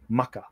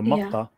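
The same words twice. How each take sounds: First: It begins with a hard K sound. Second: It begins with a deep Q sound. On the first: This is the Arabian Arabic form. "in Arabian Arabic, it becomes a hard K" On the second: This is the Yemeni Arabic form. "the Yemeni Arabic has this Q sound"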